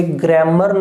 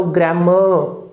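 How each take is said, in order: First: ग्रामर with the final R pronounced; wrong R ending. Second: ग्रामर ending in a long uh, R silent; schwa ending. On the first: Teacher warns the class off ग्रामर with final R. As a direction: sound the R at the end of ग्रामर. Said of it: "नहीं बोलोगे". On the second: Teacher models ग्रामर, AR turned into schwa. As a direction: let ग्रामर trail into uh without any R. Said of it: "अ का sound देगा". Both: Shown as a demonstration.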